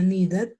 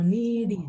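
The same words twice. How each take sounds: First: "needed" ending in a full "-et", read as written; Spanish-style wrong ending. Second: "needed" with "-id" as the last syllable; careful model "needed", ending like "id". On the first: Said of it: "yo no diría needed". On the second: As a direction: say "needed" as "ni-did", short I at the end. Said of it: "ese I D al final". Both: Shown as a demonstration.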